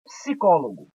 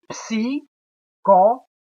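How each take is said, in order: First: Said in the usual way. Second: "Psicólogo" broken into psi, có, lo, go; very slow "Psicólogo" with long gaps between syllables; louder, each syllable of "Psicólogo" set apart. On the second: Shown as a demonstration. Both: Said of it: "a gente já meio que separa".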